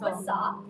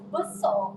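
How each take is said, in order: First: The word is said with plain, even stress. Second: The word is said with heavy added stress. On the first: The speaker calls it right. "instead of besar" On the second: The speaker calls it wrong. "add unnecessary stress"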